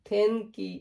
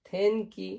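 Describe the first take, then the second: Both takes have the same delivery.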